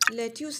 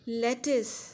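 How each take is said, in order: First: The second syllable sounds like 'yoos'. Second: The second syllable sounds like 'is'. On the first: The speaker calls it wrong. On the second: The speaker calls it right.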